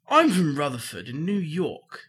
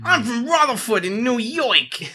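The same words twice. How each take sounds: First: It is read in the speaker's normal accent. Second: It is read in a put-on New York accent.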